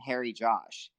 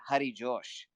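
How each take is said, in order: First: The name is said with an American pronunciation. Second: The name is said with an Indian pronunciation. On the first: "if you were to say it in Western terms, it sounds pretty American" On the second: "India, you would say"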